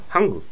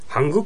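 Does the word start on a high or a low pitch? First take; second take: high; low. First: The pitch starts high and then falls low. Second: The pitch starts low, not high then low. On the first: The speaker calls it right. "ハングです" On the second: The speaker calls it wrong. "ハングとは言わないです"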